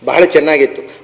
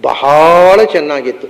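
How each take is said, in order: First: The word bahala is said with short vowels. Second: The word bahala has a drawn-out vowel. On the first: It was quite good. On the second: It was extremely good.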